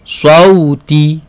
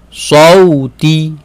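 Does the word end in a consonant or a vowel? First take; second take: vowel; vowel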